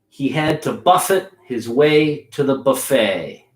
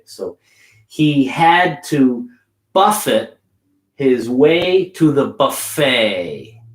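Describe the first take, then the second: First: It is said quickly. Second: It is said slowly.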